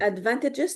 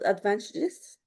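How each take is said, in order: First: The g is said with a 'j' sound. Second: The g is not said with a 'j' sound. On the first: The speaker calls it right. "Jah, jah, jah. It's a G" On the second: The speaker calls it wrong. "not advantages"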